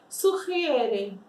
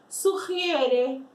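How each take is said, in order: No difference in how they are said.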